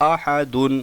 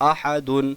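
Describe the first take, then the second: Both takes have the same delivery.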